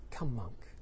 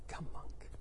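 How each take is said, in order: First: Low, quiet welcome; soft invitation. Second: Hushed whisper; whispered invitation. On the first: Buddha to new monk Angulimala, soft invitation. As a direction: invite him in softly. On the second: Buddha to new monk Angulimala, whispered invitation. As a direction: whisper it as an intimate welcome. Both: Shown as a demonstration. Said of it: "how did he say them".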